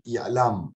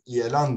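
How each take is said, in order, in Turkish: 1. Kelime m sesiyle bitiyor. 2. Kelime n sesiyle bitiyor. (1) "İlam oluyor" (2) "İlan değil"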